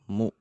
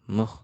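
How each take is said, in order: First: The vowel is a rounded u sound. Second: The vowel is an unrounded e sound. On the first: The speaker calls it right. "jangan e tapi u" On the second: The speaker calls it wrong. "jangan meh"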